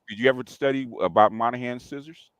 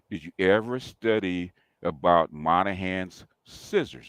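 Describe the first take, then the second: First: It is said at normal speed. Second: It is said slowly and carefully.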